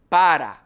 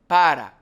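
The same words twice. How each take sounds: First: The R is a single quick tongue tap. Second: The R is a single quick tongue tap.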